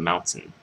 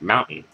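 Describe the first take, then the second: First: It is said with a clearly pronounced British t. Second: It is said with a swallowed American t. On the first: "instead of" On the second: "I just say"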